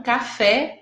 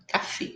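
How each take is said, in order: First: Café with an open final é, as in "ka-FEH"; wrong open vowel. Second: Café with a closed final é, as in "ka-FAY"; closed vowel. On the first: Teacher showing students the mistake to avoid, open-vowel café. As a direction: say café with the wide Portuguese é. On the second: Teacher correcting toward Spanish for students, closed-vowel café. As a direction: say café with a tight, closed e, softly. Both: Shown as a demonstration. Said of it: "o som é fechado".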